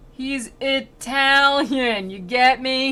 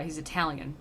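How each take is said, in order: First: Loud, high, very slow mock explanation; exaggerated prompting. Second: Said in the usual way. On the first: Virgil over-explains to his pupil Dante, exaggerated prompting. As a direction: stretch it out as if spelling it out.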